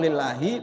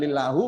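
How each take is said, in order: First: The word ends with an i vowel. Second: The word ends with a u vowel. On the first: The speaker calls it right. "li baca kasroh lillahi begitu" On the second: The speaker calls it wrong. "bukan lillahu"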